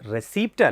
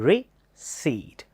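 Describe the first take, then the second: First: A p sound is said before the final t. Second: No p sound is said before the final t. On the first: The speaker calls it wrong. "Actually അത് റെസീപ്റ്റ് അല്ല" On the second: The speaker calls it right. "It's റിസീറ്റ്"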